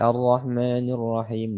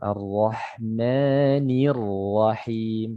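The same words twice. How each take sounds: First: The i vowel after n is barely heard. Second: The i vowel after n is clearly pronounced. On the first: The speaker calls it wrong. "Jangan dibaca Ar-Rahmanir Rahim, tidak jelas barisnya ya" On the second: The speaker calls it right. "Nunnya di sini berharakat kasrah, diperjelas barisnya"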